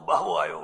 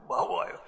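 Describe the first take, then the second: First: બાવો આયો dropped very low; deep repeat. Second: બાવો આયો in a bare whisper; whispered repeat. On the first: Child's call repeated very low. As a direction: growl બાવો આયો far lower in pitch. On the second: Child's call echoed in a whisper. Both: Retold or imitated.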